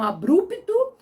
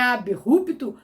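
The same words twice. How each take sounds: First: Abrupto as a-BRUP-to; BR run together. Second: Abrupto as ab-RUP-to, initial-type R; B and R separated. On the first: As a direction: say abrupto with BR as one cluster. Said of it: "que pronunciam abrupto". (abrupto com o BR junto) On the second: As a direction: say abrupto split after the B, guttural R. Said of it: "e é abrupto". (abrupto separado, ab-RUP-to, com R forte) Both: Shown as a demonstration.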